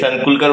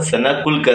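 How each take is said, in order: First: The name is said as one run-together word. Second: The name is split, with a vowel after San. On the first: This is how most people say it. The speaker calls it wrong. "सगळे सनकुलकर बोलतात" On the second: This is the family's real name. The speaker calls it right. "पण सना कुलकर ऐसा आहे"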